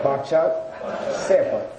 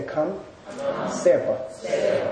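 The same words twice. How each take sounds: First: Teacher models Bakchak Sepa aloud for the class; Tibetan term Bakchak Sepa. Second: Teacher softly models Kam Sepa for students to repeat; soft modelled Kam Sepa. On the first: Teacher clearly models Bakchak Sepa for students. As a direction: say Bakchak rising, then Sepa falling. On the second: Teacher quietly models Kam Sepa for the class. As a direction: say Kam Sepa slowly, in a near whisper. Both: Shown as a demonstration. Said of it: "Say Kam Sepa".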